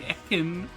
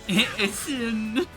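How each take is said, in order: First: The middle consonant is a hard K sound. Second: The middle consonant is a soft S sound.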